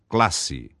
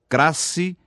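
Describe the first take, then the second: First: The L is pronounced as a clear L. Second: The L is replaced by an R sound. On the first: The speaker calls it right. "forma correta" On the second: The speaker calls it wrong. "Crasse em lugar da forma correta"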